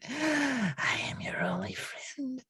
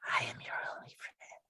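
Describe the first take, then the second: First: Creepy whisper. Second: Quick, hushed creepy repeat; fast creepy whisper. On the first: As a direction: whisper it possessively. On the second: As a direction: rush the whisper out. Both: Acted. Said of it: "too creepy for my taste".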